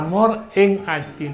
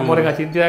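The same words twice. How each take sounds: First: The words are said separately and clearly. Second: The words are run together in fast speech.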